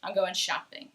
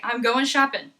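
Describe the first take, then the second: First: "shopping" ending in a full -ing; softer, lower, keep the NG on "shopping"; G kept in shopping. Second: "shopping" said as "shoppin'"; casual "goin' shoppin'" for "going shopping"; dropped G. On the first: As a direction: finish "shopping" with its G intact. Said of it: "most of the time it will stay". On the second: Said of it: "Some people in the United States will say". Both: Shown as a demonstration.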